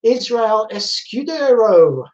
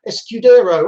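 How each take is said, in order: First: Escudero slow, every syllable spelled out; careful name reading. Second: Escudero repeated louder with a falling end; repeated name. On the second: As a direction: say Escudero again, firmer and louder. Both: Shown as a demonstration.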